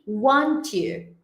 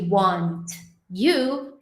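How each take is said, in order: First: The t blends into the following y sound. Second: The t and y sounds stay separate. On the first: "entrou nessa outro padrão de efeito cotonete" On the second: "Ao invés de"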